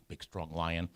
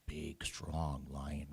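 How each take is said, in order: First: Said in the usual way. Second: Slow whisper on big, strong lion. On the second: A narrator's reading. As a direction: breathe out "big, strong lion" slowly with weight on strong.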